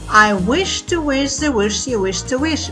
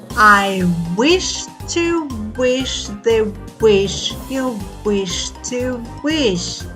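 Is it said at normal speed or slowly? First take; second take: normal speed; slowly. First: It is said at normal speed. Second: It is said slowly.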